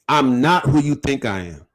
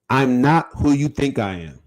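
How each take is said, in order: First: It is said forcefully, with strong conviction. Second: It is said plainly, without strong conviction. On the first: The speaker calls it right. "say it like you really mean it" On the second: The speaker calls it wrong. "Don't just be saying it"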